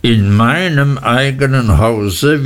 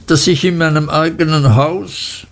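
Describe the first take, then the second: First: Stern husband. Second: Higher, wounded protest; a wife's complaint in a raised pitch; aggrieved mother. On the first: Husband repeating his wife's words to correct her, stern. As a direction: echo the words back with cold weight. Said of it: "wiederholte Mister Murdstone". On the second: Wife protesting about her own house, aggrieved and higher. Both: A narrator's reading.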